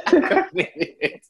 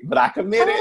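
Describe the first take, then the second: First: Slow, laughing repeat. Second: High, loud exclaimed protest; high shout. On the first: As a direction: let the laugh carry the words. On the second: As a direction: yelp it out in protest. First take, shouted high. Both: Real, not acted.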